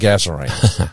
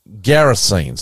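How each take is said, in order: First: The name begins with a 'Gaz' sound. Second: The name begins with a 'Ger' sound. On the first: The speaker calls it wrong. "not Gazarenes" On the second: The speaker calls it right. "I'm going to say it properly"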